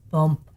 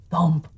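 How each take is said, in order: Both takes have the same delivery.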